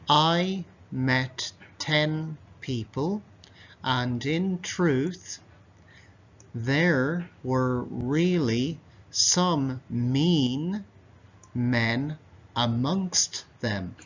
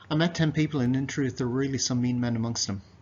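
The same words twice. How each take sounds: First: The sentence is read slowly. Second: The sentence is read quickly. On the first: "I'll read that slowly again" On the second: "Now I'm going to read it quickly"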